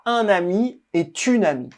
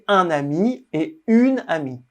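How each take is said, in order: First: Et links into une with a T sound. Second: Et and une are said without linking. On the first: The speaker calls it wrong. "On ne dit pas" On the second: The speaker calls it right. "On dit"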